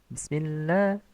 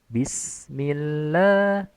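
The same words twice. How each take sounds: First: The short vowel is clipped to half length. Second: The short vowel is given its full length. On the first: The speaker calls it wrong. "jangan bismillah. Itu ikhtilas" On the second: The speaker calls it right. "itu harusnya bismillah"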